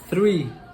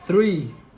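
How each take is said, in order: The two takes are said the same way.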